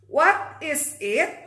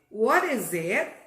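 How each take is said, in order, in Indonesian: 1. Setiap kata diucapkan terpisah dan jelas. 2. Kata-katanya disambung dengan lancar. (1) "Jadi bukan what is it?" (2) "agak dicadel-cadelin ya"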